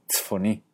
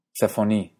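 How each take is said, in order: First: Tzfoní, sin la a, despacio. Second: Tzafoní, con la a; tzafoní completo. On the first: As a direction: di tzfoní juntando consonantes. (forma moderna) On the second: (forma antigua) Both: Shown as a demonstration. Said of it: "se vuelve".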